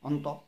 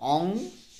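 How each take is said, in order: First: A tongue n sound joined smoothly to t. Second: A throat ng sound, then a separate t. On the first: The speaker calls it right. "ন তটো পটকৈ ক'বলৈ ভাল" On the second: The speaker calls it wrong. "অং বুলি কৈ আকৌ ত ক'লোহেঁতেন। কিন্তু সেইটো ক'বলৈ যাওঁতে অকণ দিগদাৰ হয়"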